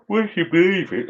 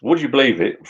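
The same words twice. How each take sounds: First: Much higher, squeaky "would you believe it?"; amazed disbelief. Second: Higher but calmer "Would you believe it?"; milder disbelief. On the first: To the viewers, a high squeaky cry of disbelief. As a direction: pitch it way up like you can't believe it. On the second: Retelling the drone story to viewers, mildly amazed. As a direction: repeat it, still amazed but settling. Repeats the exclamation. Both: Real, not acted.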